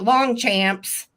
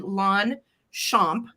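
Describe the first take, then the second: First: The name is read out the English way. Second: The name is said the French way. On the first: The speaker calls it wrong. "while it looks like" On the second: The speaker calls it right. "it's actually Longchamp pronunciation in French"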